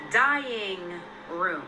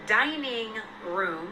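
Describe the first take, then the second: First: "dying room" with no "n", like "dying". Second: "dining room" said slowly with a clear "n". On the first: Showing the misheard name, "dying room" without the "n". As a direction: drop the "n" so "dining" sounds like "dying". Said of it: "and not". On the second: Spelling out the real name, "dining room" said slowly. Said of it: "I found out it was called". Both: Shown as a demonstration.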